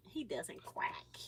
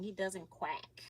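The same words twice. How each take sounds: First: Slow, soft whisper; toddler-teasing whisper. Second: Said in the usual way. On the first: Shown as a demonstration. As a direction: breathe it out like a secret.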